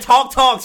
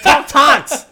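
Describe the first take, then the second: First: The last word ends without an X-like sound. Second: The last word ends with an X-like sound. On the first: The speaker calls it wrong. "you're saying talk talks" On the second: The speaker calls it right. "Make the end of talks an X"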